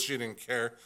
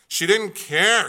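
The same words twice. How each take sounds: First: Said in the usual way. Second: "She didn't care." slow, higher and louder, leaning on "care"; higher, louder, slow emphatic "care". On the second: Shown as a demonstration. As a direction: repeat it with punch, drawn out on "care".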